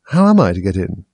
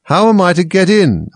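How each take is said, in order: First: Said in the usual way. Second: Higher, louder insistent question. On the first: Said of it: "said Alice". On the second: A narrator's reading. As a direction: demand it, raising the voice. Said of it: "in a louder tone".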